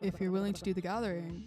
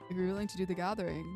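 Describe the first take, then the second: First: The voice is smooth, without creaky vocal fry. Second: The voice is creaky, with heavy vocal fry.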